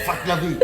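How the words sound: It sounds firm and comes from the throat. There is no negotiation. The speaker calls it right. "Avec l'intonation, ça sort de la gorge"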